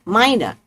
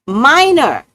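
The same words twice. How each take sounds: First: Said in the usual way. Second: "Minor" drawn out high and loud; emphatic MINOR. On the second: Shown as a demonstration. Explaining the poke to a Taurus, emphatic loud "Minor". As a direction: hit "Minor" harder, pitch swooping up and down. Same word repeated with force.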